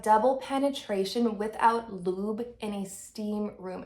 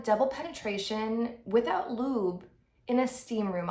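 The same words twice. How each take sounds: First: "double penetration without lube" repeated with deliberate emphasis on each word; emphatic repeat. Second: Said in the usual way. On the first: Real, not acted. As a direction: spell out "without lube" with incredulous weight. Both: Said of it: "I'll repeat that".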